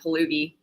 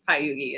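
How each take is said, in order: First: The middle consonant is an L sound. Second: The middle consonant is a Y sound. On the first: This is how people in America say it. The speaker calls it wrong. "people in America pronounce it Palugi" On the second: This is how the name is actually said. The speaker calls it right. "Payugi is how you actually say it"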